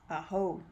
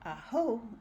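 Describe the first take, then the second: First: The pitch goes up and then down. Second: The pitch only goes up. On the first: It means thank you. "It's got the up and down" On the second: It means kill him. "with the only going up"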